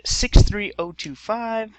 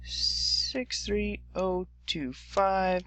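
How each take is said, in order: First: Digits read out slowly one by one; slow dictation. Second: The digits again even slower and softer; slower, softer repeat. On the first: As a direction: spell out each digit slowly for note-taking. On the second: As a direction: give them time to write each digit down. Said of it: "And six three oh two five". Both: Shown as a demonstration.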